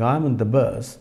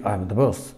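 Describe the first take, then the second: First: Said in the usual way. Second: "I'm in the bus" with "in" swallowed to a bare n; clipped-vowel "in" in "I'm in the bus", London-style; Estuary pronunciation demo. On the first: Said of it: "instead of saying". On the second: Shown as a demonstration. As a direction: run "I'm in the bus" together, the "in" nearly lost. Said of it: "but they say".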